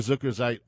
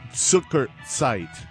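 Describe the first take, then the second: First: The word starts with a soft z sound. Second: The word starts with a hard ts sound. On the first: The speaker calls it wrong. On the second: The speaker calls it right.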